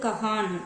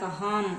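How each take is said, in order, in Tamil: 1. இந்தச் சொல் தெளிவான n ஒலியில் முடிகிறது. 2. இந்தச் சொல் தெளிவான m ஒலியில் முடிகிறது. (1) "இது வந்து கஹான் அப்படின்னு நம்ம படிக்கல" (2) "கஹாம் அப்படின்னு சொல்ல மாட்டோம்"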